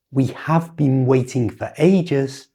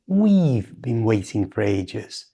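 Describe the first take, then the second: First: "We have" with a full, unreduced have; full form we have. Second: "We've" in one syllable ending in v; contracted we've. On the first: Teacher showing the form not to use. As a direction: say "We have" slowly. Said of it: "It's not". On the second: Teacher modelling the correct contraction. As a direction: blend "We've" into been. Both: Shown as a demonstration.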